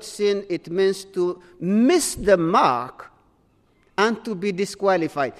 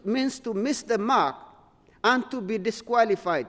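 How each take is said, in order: First: Slow, deliberate definition. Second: Said in the usual way. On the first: Shown as a demonstration. Preacher defining sin for the congregation, slow and deliberate. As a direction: spell out "miss the mark" slowly, word by word. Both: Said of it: "very important".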